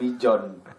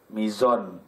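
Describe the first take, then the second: First: The middle consonant is said as a j. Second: The middle consonant is said as a z. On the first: The speaker calls it wrong. "bukan mijon" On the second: The speaker calls it right. "nah itu benar"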